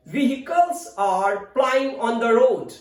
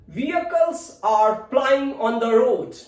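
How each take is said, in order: First: "vehicles" as VEE-hi-kuls, H sounded; American pronunciation. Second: "Vehicles" as VEE-uh-kuls, no H; British pronunciation. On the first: Teacher's American example sentence, "vehicles" as VEE-hi-kuls. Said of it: "American English". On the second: Teacher's British example sentence, "Vehicles" as VEE-uh-kuls. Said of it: "It's British pronunciation". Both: Shown as a demonstration.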